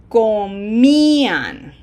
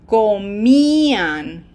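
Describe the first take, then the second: No difference in how they are said.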